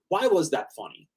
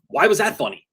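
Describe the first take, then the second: First: The question sounds genuinely curious and open. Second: The question sounds challenging and confrontational. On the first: The asker sincerely wants to understand. The speaker calls it right. "I'm not asking this in a sarcastic... I'm actually curious" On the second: The asker is trying to catch someone out. The speaker calls it wrong. "you could come off as like, let me ask you something"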